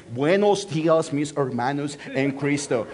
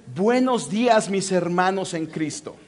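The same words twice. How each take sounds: First: Mock American accent in Spanish. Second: Put-on plain Latin American Spanish accent; native Spanish greeting. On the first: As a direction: imitate an English speaker reading Spanish, lower at the end. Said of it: "American accent in Spanish". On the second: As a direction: model the Spanish greeting for a learner. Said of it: "Well, with a different accent".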